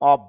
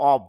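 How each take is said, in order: Both takes have the same delivery.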